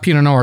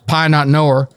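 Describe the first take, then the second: First: The wine name is said the standard way. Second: The wine name is said with a Southern American accent. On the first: "it's not Pinot Noir" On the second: "we're in America, so ... It's Pie Not Noir"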